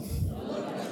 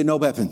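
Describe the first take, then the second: First: Unvoiced soft repeat; whispered echo. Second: Said in the usual way. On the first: Real, not acted. Congregation answering softly, whispered. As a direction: breathe the words back. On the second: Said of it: "Everybody say".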